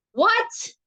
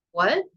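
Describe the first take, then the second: First: High exasperated shriek on What; screamed with exasperation. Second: Said in the usual way. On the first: A narrator's reading. Harriet fed up with old Golly's quotes, exasperated scream. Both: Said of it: "Harriet screamed with exasperation".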